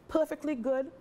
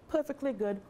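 Both takes have the same delivery.

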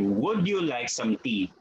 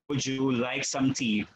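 First: The D and Y sounds stay separate. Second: The D and Y blend into one sound. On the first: The speaker calls it wrong. "You don't place you" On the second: The speaker calls it right. "We say you"

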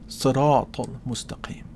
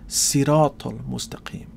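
First: The first s is a heavy emphatic s. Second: The first s is a plain s sound. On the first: "with a sad" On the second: "with a sin"

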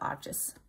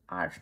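First: It is said with an extra final syllable. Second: It is said as one syllable, ending in 'sh'. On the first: The speaker calls it wrong. "not Arches" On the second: The speaker calls it right. "Arch is called Arch"

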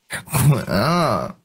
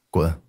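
First: It is said in a coy, pouting way. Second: It is said flatly, without emotion. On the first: "撒娇" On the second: "你先说普通的滚，随便来，平淡一点。"

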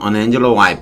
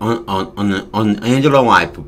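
First: The phrase is said at a fast pace. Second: The phrase is said at a slow pace.

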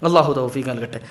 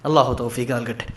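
The two takes are said the same way.

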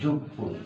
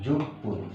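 The two takes are said the same way.

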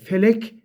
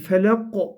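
First: It ends in a plain front 'k' sound. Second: It ends in a deep back 'q' sound. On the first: The speaker calls it wrong. "Felek diye okumamamız gerekiyor" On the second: The speaker calls it right. "kof harfiyle okumamız lazım"

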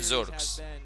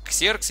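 First: The name is pronounced in the English way. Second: The name is pronounced in the Russian way. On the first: The name is said as the player intends. The speaker calls it right. "Его надо называть Зеркс" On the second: The name is altered as a joke. The speaker calls it wrong. "как Ксеркс я его называл"

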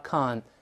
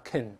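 First: The syllable is stressed with a full vowel. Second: The syllable is unstressed with a weak vowel. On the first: "重读时发con" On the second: "轻读时发con"

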